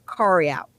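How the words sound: The first word sounds like 'curry'. The speaker calls it right. "It's a curry out"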